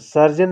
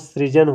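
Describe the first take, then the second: First: The word begins with the sound sar. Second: The word begins with the sound sri. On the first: The speaker calls it wrong. "सर्जन नहीं दोस्तों" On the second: The speaker calls it right. "सृजन होता है"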